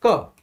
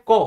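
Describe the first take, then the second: First: "क" with a neutral short a, unrounded; standard pronunciation. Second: "कौ" with a rounded aw vowel; Bihar pronunciation. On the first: Shown as a demonstration. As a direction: say "क" as k plus schwa. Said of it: "इनको बोलते हैं साधारण भाषा में". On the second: Retold or imitated. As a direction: round the lips on "कौ", Bihar style. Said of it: "Bihar side ... इसको बोलते हैं कौ".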